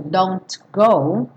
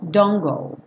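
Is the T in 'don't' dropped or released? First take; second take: released; dropped. First: The T in don't is clearly pronounced. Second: The T in don't is left out. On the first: "esse T está com som sequinho, oclusivo" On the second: "O importante aqui é esquecer o T"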